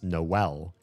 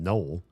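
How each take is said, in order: First: The O and E are said as separate syllables. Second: The O and E merge into one gliding syllable. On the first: The speaker calls it right. "that's often pronounced Noel" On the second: The speaker calls it wrong. "the O and the E to not diphthong together and become Noel"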